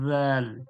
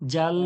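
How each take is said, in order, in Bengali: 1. এটি নরম th ধ্বনি দিয়ে শুরু হয়। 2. এটি কড়া j ধ্বনি দিয়ে শুরু হয়। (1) "জিহ্বার আগাটা উপরের দাঁতের ধারালো অংশতে লাগিয়ে দেন" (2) "জাল বললে আহ, বর্গীয় জোর মতো হয়ে যাচ্ছে"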